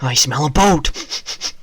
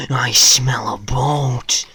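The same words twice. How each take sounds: First: Loud, slow put-on creature voice; hammed-up loud creature bellow; mock creature voice. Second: Slow, loud hissed whisper; hammed-up slow loud whisper. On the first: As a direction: sniff it out like a greedy monster. Gaming exclamation. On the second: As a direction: whisper it greedily, slowly. Repeated in whisper.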